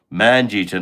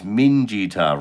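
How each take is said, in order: First: "Manjita" said with an open a sound, MAN-jita; the mistaken reading "Manjita", a as in man; "Manjita" with the first syllable like man; wrong name. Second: "Minjita" said with a short i, MIN-jita; "Minjita" with the first syllable like min, falling at the end; correct name. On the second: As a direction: correct it firmly to "Minjita", i as in pin. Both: Shown as a demonstration. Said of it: "no, it's Minjita".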